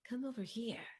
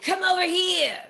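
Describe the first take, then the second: First: It is said in a seductive, alluring tone. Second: It is said in an aggressive, repelling tone. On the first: The speaker invites the listener closer. "the seductive tone of Batman" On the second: The speaker pushes the listener away. "That's more of an aggressive tone, more of a repellent one"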